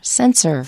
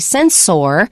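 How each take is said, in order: First: The last syllable is a reduced 'er' sound. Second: The last syllable is a full 'or' sound. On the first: The speaker calls it right. "we say er, sensor" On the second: The speaker calls it wrong. "we don't say sensor"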